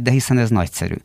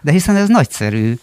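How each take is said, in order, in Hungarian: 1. Egyszerű, semleges hangon mondják. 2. Lelkes, izgatott hangon mondják.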